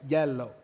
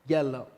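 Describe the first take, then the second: Both takes have the same delivery.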